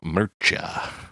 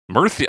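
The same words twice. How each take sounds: First: The middle consonant sounds like 'ch'. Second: The middle consonant sounds like 'th'. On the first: The speaker calls it wrong. "I did it the Italian way" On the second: The speaker calls it right. "It's a T H sound"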